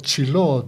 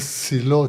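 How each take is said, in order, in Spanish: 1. El nombre se dice a la manera hebrea. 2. El nombre se dice de la manera española habitual.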